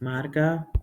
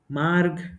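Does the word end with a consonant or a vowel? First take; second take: vowel; consonant. First: The word ends with a full final a vowel. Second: The word ends on a consonant, vowel cut short. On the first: This is the Kannada form. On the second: This is the Hindi form.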